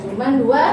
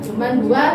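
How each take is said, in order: No difference in how they are said.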